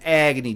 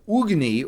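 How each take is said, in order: First: The name is said with a Chicago pronunciation. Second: The name is said with its original pronunciation. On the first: "I always pronounce it Agni because that's like a very Chicago" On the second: "the actual way it's pronounced"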